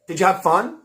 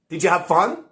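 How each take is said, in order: First: The stress falls on have fun. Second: The stress falls on have fun.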